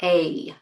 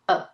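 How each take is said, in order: First: The vowel is a full, strong vowel. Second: The vowel is a short, weak schwa. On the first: The speaker calls it wrong. "It's not a" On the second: The speaker calls it right. "the weak vowel sound a, which is called schwa"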